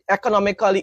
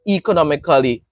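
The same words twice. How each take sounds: First: The first vowel is not the letter-name E. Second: The first vowel sounds like the letter-name E. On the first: The speaker calls it wrong. "it's not e- economically" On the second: The speaker calls it right. "economically with a E"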